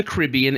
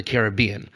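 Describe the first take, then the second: First: "Caribbean" stressed on RIB; "Caribbean" with the second syllable stressed; kuh-RIB-ee-un pronunciation. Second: "Caribbean" stressed on BEE; "Caribbean" with the third syllable stressed; care-ih-BEE-un pronunciation. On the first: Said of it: "it's always the Caribbean, except". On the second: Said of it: "except for the Pirates". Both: Shown as a demonstration.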